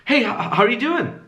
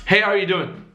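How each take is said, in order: First: Hesitant, higher-pitched greeting; value-taking tone. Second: Easy downward-falling greeting; confident greeting, let DOING fall; value-giving tone. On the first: Showing students a needy greeting, hesitant and high. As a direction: stumble on HOW as if seeking approval. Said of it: "which one is value taking". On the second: Showing students a giving greeting, confident falling tune. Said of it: "say the same thing twice". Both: Shown as a demonstration.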